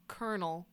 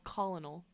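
First: Said in the usual way. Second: Colonel said as spelled, COL-uh-nel; spelling pronunciation. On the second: Shown as a demonstration. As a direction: sound out the L in colonel. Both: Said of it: "which is spelled colonel".

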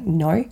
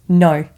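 First: Said in the usual way. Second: NO said a touch louder, final; "no" with a flat, firm stop, nothing else. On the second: Retold or imitated. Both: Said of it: "just N O".

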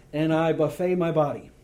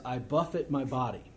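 First: "buffet" misread as buff-AY, like the food table; "buffet" said buff-AY, the wrong way; mispronounced buffet. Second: Buffet said BUFF-it, rhyming with tough it; "buffet" said BUFF-it, a hard beat on the first syllable; "buffet" as BUFF-it, the verb for striking; buffet as in strike. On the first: Retold or imitated. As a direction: friend reads "buffet" as buff-AY, the all-you-can-eat kind. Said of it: "this mental picture of this really big guy". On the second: Shown as a demonstration. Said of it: "B U F F E T".

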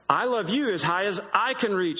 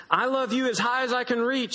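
First: Lightly voiced big hare topping the little one. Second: Put-on high, childlike bunny voice; tiny hare boasting up high; little hare voice. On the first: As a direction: answer like a calm, bigger father hare. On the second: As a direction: sound small and eager, reaching up. Little hare speaks, then big.

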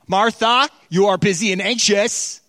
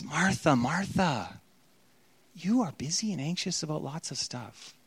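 First: Louder, higher scolding Martha, stress on you; harsh tone. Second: Much softer, tender "Martha, Martha"; gentle rebuke. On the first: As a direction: read "Martha, you are busy and anxious" as a sharp rebuke. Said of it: "read it in a different tone". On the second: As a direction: say "Martha, Martha" as a loving gentle correction. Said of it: "It's a gentle rebuke". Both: Shown as a demonstration.

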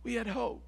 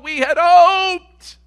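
First: Much softer, falling away to almost nothing; hushed echo. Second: High, loud and drawn out, slow; loud, slow lament. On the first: Preacher echoing the line softly to the congregation. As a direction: let it die on the breath. Echo after a long pause. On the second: Preacher crying out to the congregation, loud and slow. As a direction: cry out the loss of hope to the church. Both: Acted.

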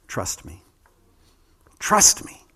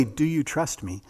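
First: "Trust me" said as a firm command, no question in it. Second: "Do you trust me?" asked as a real question, ending on "me?". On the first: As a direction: tell them, don't ask, like a king. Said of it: "He gives it as a command". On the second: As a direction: ask it, as if waiting for an answer. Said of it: "he doesn't ask it as a question". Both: Shown as a demonstration.

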